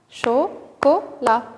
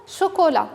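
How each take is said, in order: First: "Chocolat" slowly split, cho, co, la; syllable by syllable. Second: Said in the usual way. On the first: Shown as a demonstration. Teacher repeats the count for children, syllable by syllable. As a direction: tap out "Chocolat" as three separate syllables. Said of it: "de combien de syllabes se compose". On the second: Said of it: "découper chaque mot".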